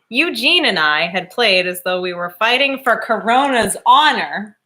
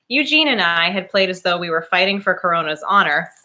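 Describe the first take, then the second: First: It is read a little more slowly. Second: It is read at a normal pace.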